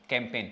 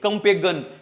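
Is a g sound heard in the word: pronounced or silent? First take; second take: silent; pronounced. First: The g is silent; it ends in a plain n. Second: A g sound is pronounced before the final n. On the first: The speaker calls it right. "जी क्या हो जाता है, silent हो जाता है" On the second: The speaker calls it wrong. "अरे master जी क्या है ये"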